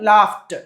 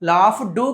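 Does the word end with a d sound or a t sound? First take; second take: t sound; d sound. First: The word ends with a t sound. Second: The word ends with a d sound. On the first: The speaker calls it right. "ఇలా పలకాలి" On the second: The speaker calls it wrong. "లాఫ్ డూ కాదు"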